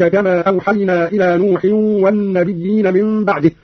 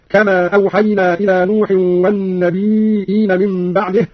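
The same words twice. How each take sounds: First: Said in the usual way. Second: والنبيين said "wan-nabee'een", long ee then glottal stop; slow reading, والنبيين with hamza instead of doubled ya. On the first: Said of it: "قرأ قالون أيضًا بهمز الياء". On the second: Shown as a demonstration. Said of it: "أيضًا بهمز الياء".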